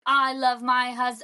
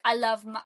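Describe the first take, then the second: First: Put-on half-hearted Brooklyn accent, drawn out; imitated Brooklyn accent, abandoned midway; attempted Brooklyn accent. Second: Said in the usual way. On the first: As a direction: have a slow, unsure go at Brooklyn. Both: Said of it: "I can't do a Brooklyn accent".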